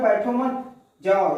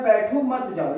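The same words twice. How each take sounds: First: बैठो मत together, जाओ set apart; slow it, with a break before जाओ; group it as बैठो मत, then जाओ; meaning leave now. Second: बैठो set apart, मत joined to जाओ; slight break after बैठो, then मत जाओ as one phrase; group it as बैठो, then मत जाओ; meaning stay put. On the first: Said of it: "निकलो तुरंत, रुको मत". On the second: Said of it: "यानी कि रुकने की बात कर रहा है". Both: Shown as a demonstration.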